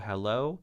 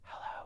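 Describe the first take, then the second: First: It is spoken in a normal voice. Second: It is whispered quietly. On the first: "say the word hello" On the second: "then to whisper it"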